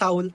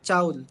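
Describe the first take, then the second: First: The word starts with an 's' sound. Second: The word starts with a 'ch' sound.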